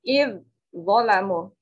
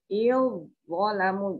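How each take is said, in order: First: The first consonant is pronounced separately. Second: The first consonant merges into the following one. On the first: The speaker calls it wrong. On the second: The speaker calls it right. "Cara bacanya"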